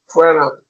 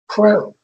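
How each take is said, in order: First: An extra vowel follows the final consonant. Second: It ends cleanly on the final consonant.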